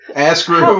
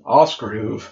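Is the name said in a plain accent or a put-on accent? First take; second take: plain; put-on. First: The name is said in a plain accent. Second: The name is said in an imitated foreign accent.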